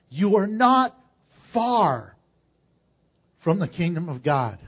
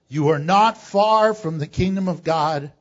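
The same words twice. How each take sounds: First: It is read slowly. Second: It is read at a normal pace.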